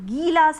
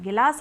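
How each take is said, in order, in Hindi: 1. पहला स्वर लंबी ई की ध्वनि है। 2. पहला स्वर छोटी इ की ध्वनि है। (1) "और गिलास है तो बड़ी ई की मात्रा" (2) "अगर गिलास है तो छोटी ई की मात्रा"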